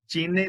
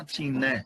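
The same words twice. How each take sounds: First: ਚੀਨੇ said with a closed final e, like chīne; wrong pronunciation. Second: ਚੀਨੈ with an open final ai vowel, like chīnɛ; correct pronunciation. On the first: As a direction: show the mistake, ending ਚੀਨੇ on a closed e. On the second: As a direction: end ਚੀਨੈ on the open ai sound. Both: Shown as a demonstration. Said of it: "ਚੀਨੇ ਨਹੀਂ ਪੜਨਾ".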